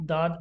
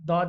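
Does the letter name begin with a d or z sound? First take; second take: d; d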